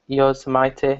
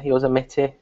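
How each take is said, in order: First: Yosemite with its ending rhyming with "mighty". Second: Yosemite with short i, ending "-mitty"; Yosemite as "Yo-sem-itty". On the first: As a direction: say Yosemite as "yo-zuh-MY-tee". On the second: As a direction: say Yosemite as "yo-ZEM-it-ee". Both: Shown as a demonstration. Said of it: "how to pronounce Yosemite".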